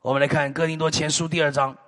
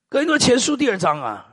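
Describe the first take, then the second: First: Said in the usual way. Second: 哥林多前书第二章 repeated with weight on 多, falling; emphatic repeat. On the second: Shown as a demonstration. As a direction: hammer home 哥林多前书第二章. (强调重复“哥林多前书第二章”，重读“多”)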